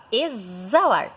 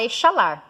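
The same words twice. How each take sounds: First: "exalar" said as e-za-LAR; correct Z pronunciation. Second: "exalar" said as e-sha-LAR; "exalar" with a hushing SH; wrong SH pronunciation. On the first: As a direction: say "exalar" with a held buzzing Z. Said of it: "Você fala exalar". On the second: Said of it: "você não fala exalar". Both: Shown as a demonstration.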